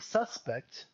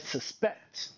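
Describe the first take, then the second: First: The stress is on the first syllable. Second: The stress is on the second syllable. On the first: It names a person, a thing. "When we put the emphasis in the beginning, the word is a noun" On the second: It names an action. "when we put the emphasis here, it's an action"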